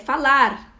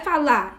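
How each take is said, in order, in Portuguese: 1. O som do R final é claramente pronunciado. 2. O som do R final é omitido.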